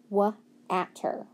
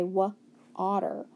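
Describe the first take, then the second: First: "wa-atter" with A as in cat; sounding out wrongly. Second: "wa-otter" with an open ah; corrected sounding out. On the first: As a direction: break it into "wa" and "atter", flat cat vowel. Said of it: "try to sound it out". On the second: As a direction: break it into "wa" and "otter". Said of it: "put those two dots on it". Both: Shown as a demonstration.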